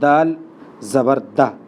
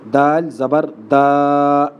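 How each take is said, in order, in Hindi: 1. अंतिम स्वर छोटा, सम और हल्का है। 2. अंतिम स्वर खींचकर लंबा किया जाता है। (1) "हम पढ़ते दाल ज़बर दा" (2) "लंबा किस तरह पढ़ते हैं लोग ... ये गलत है"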